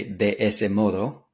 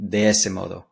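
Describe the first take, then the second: First: "de ese modo" slowly, each word distinct; three clear words. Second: "De ese modo" linked into one quick phrase; words run together. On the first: Teacher showing how beginners say "de ese modo", word by word. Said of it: "like three clear words". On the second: Teacher showing how singing it joins "De ese modo", run together. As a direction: blend "De ese" into "modo" without gaps. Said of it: "sound like it runs together". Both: Shown as a demonstration.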